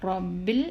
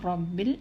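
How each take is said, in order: No difference in how they are said.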